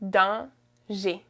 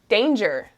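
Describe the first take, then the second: First: It is pronounced with French sounds. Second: It is pronounced with English sounds.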